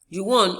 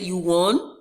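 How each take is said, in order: First: The voice falls at the end. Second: The voice rises at the end. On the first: It is a statement. "is a declarative sentence" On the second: It is a question. "you can see the rising intonation"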